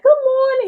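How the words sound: It sounds cheerful and full of energy.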